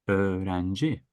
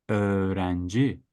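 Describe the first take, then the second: Both takes have the same delivery.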